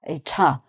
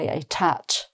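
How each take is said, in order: First: The word ends without a T sound. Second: The final T sound is pronounced. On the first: The speaker calls it right. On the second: The speaker calls it wrong.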